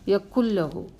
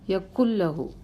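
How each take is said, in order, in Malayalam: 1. "n" ഇരട്ട "l"-ൽ ലയിച്ച് ഇല്ലാതാകുന്നു. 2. "n" ഇരട്ട "l"-ൽ ലയിച്ച് ഇല്ലാതാകുന്നു.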